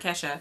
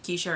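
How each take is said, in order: First: The first vowel sounds like 'e' in bed. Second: The first vowel sounds like 'ay' in day. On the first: This is how the name became said after a famous singer. "now I get called [name] a lot" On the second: This is how the name has always been said. "it's always been Keisha"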